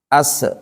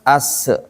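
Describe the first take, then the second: The two takes are said the same way.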